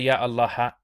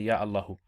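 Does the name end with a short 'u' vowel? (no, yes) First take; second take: no; yes. First: The name ends without a final vowel. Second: The name ends with a short 'u' vowel. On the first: The speaker calls it wrong. "you don't say" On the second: The speaker calls it right. "you say"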